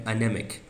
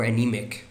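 First: "anemic" with a short e in the second syllable; alternative pronunciation. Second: "anemic" with a long ee in the second syllable; alternative pronunciation. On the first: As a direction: say "anemic" as a-NEM-ik. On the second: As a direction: say "anemic" as a-NEE-mik. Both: Shown as a demonstration. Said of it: "Or anemic".

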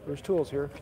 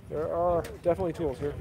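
First: Said in the usual way. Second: "are" leaned on, dry emphasis; deadpan insistence on "are"; stress on are. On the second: Shown as a demonstration. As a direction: land hard on "are" in "There are definitely tools here".

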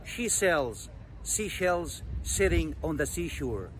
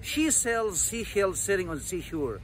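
First: Slow, phrase by phrase with pauses; slow pronunciation. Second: One quick connected take, no pauses; quick pronunciation. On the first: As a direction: say it slowly for learners to copy. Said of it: "ده النطق اللي هو البطيء". (نطق بطيء) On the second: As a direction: run the tongue twister together quickly. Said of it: "هقولها بسرعة وانت تكررها معايا". (نطق سريع) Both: Shown as a demonstration.

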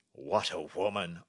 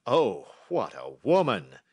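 First: King's exclamation, fairly contained; first, measured cry of admiration; admiring cry. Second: Loud, slow royal exclamation; emphatic admiring cry. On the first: King marvelling after reading her letter, admiring cry. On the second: King overwhelmed by the clever lady, loud admiring cry. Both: A narrator's reading. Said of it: "cried the King of Bohemia".

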